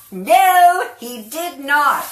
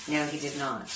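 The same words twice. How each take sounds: First: High, slow laughing denial. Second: Said in the usual way. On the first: Real, not acted. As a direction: laugh it out slowly. Caught out about Scott.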